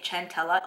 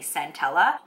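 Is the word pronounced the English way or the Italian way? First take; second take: Italian; English. First: The word is given an Italian pronunciation. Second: The word is given an English pronunciation. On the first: The speaker calls it wrong. "The Italian in me wants to say centella" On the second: The speaker calls it right. "I know it's definitely centella"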